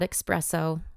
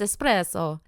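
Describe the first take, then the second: First: It starts with an 'ex' sound, like 'expresso'. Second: It starts with an 'es' sound, no 'x'. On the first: The speaker calls it wrong. "not espresso. Okay, I hear that a lot. There's no X in espresso" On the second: The speaker calls it right. "It's espresso"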